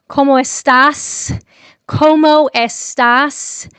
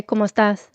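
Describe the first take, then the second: First: Slow, loud gringo "¿Cómo estás?" with a hard, hissed S on "estás"; mock the way a gringo says "¿Cómo estás?", dragging it out; hammed-up gringo accent, higher and louder, hitting the S in "estás"; gringo Spanish. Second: "¿Cómo estás?" said quickly and naturally, the S in "estás" soft and barely heard; relaxed native "¿Cómo estás?" with a quiet final S; easy native Spanish "¿Cómo estás?", S almost swallowed. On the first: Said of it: "como un gringo, you sound like that". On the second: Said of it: "the S is there. It's just quiet". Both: Shown as a demonstration.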